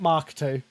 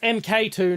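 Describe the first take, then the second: First: MK is spoken as the single word mark. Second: MK is spoken as two separate letters. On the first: The speaker calls it wrong. "not Mark two" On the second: The speaker calls it right. "it's M K two"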